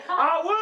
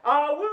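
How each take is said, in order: First: Louder, higher whoop; bigger whoop. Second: Excited announcer whoop to hype the crowd. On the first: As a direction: push the cheer up a notch. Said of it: "Let's try it again". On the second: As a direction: cheer it out like a party host. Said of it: "you can do just a little bit better". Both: Acted.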